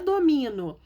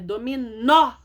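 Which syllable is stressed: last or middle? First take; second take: middle; last. First: The stress is on the middle syllable. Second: The stress is on the last syllable. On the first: The speaker calls it wrong. "Sem acento fica domino" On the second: The speaker calls it right. "é dominó"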